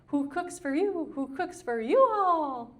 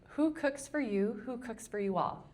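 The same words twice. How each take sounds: First: The phrase is hooted in an owl-like call. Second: The phrase is spoken in a plain speaking voice. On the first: This is how the bird actually sounds. The speaker calls it right. "It says" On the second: This is how people think the bird says it. The speaker calls it wrong. "But it doesn't say it like that"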